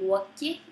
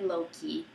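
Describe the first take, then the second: First: The name is said with Icelandic pronunciation. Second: The name is said with English pronunciation. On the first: "in the Icelandic way" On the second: "instead of"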